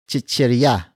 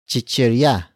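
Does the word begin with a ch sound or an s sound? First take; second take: ch sound; ch sound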